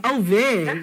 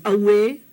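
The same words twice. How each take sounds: First: "Away" said oh-veh; "Away" as oh-veh, V replacing the W; mistaken V sound. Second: "Away" said ah-weh; "Away" as ah-weh, gliding on the W; W glide. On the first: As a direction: show the error: "Away" with a v. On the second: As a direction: say "Away" with a w, never a v. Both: Shown as a demonstration. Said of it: "it's definitely not a V".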